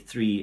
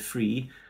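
First: The word is said in a careful standard way. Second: The word is said in a casual vernacular way. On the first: It suits a formal lecture. "in a lecture context" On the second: It suits an informal chat with a young Londoner. "to a young working class Londoner"

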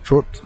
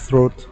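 First: The word is said with a Trinidadian accent. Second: The word is said without a Trinidadian accent. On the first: This is how locals say it. "Trini's talk. You know, they would say throat" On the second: This is not how locals say it. "they wouldn't say throat"

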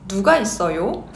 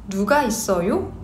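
The two takes are said the same way.

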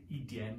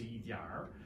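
First: The word ends without an R sound. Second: The word ends with an R sound. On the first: "you don't say yi dian" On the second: "you say yi diar"

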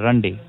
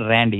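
First: The first vowel is a 'u' sound. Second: The first vowel is an 'a' sound. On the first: The speaker calls it right. "Like a U" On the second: The speaker calls it wrong. "It's not Randy"

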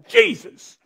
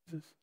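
First: It is said as a passionate exclamation. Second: It is said flatly, without passion.

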